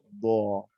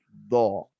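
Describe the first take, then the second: First: The consonant is produced with weaker, lighter airflow. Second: The consonant is pushed out with stronger airflow. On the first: "Tanpa istitolah maka kedudukannya sedikit lebih lemah" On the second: "dorongan udara atau power suara dot ini lebih uh, keras"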